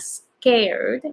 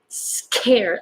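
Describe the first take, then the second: First: The K is released with little air. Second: The K is released with a strong puff. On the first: The speaker calls it wrong. "not scared" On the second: The speaker calls it right. "more scared"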